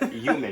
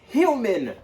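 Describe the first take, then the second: First: The word begins without an h sound. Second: The word begins with an h sound. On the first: The speaker calls it wrong. "I hate when people say human" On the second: The speaker calls it right. "It's human. With the H"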